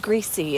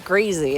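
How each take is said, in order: First: The middle consonant is a hissing s sound. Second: The middle consonant is a buzzing z sound. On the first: Someone else's way of saying it. "he says it's greasy" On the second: The speaker's own way of saying it. "It sounds grazier when you say greasy"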